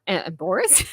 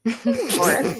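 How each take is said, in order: First: Said in the usual way. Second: Embarrassed said slowly through a laugh; laughing at own slip. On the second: Real, not acted. Podcaster laughing as she corrects Embarrassed. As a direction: laugh while fixing the flubbed word Embarrassed. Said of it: "embor-, uh, embarrassed".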